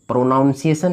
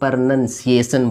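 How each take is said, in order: First: The second syllable sounds like 'nown'. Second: The second syllable sounds like 'nun'. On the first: The speaker calls it wrong. "प्रोनाउंसिएशन नहीं बोलेंगे" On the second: The speaker calls it right. "इसको प्रनंसिएशन बोलेंगे"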